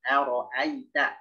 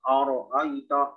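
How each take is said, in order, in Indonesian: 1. Hamzah di awal tipis; hanya huruf r yang berat. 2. Hamzah di awal dibuat tebal dan berat. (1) "Yang tebalnya huruf ro" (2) "Jangan oro'aita"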